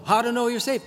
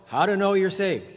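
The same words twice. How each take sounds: First: Scoffing book title, pitched higher. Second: Mock title. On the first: Retold or imitated. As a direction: read the title high with scorn. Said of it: "Same problem".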